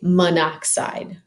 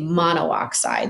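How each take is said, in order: First: The final 'o' of 'mono' is dropped. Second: The final 'o' of 'mono' is kept separately. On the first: The speaker calls it right. "We just say monoxide" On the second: The speaker calls it wrong. "We wouldn't say monoxide. It's a little clunky"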